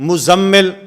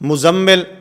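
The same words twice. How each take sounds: Both takes have the same delivery.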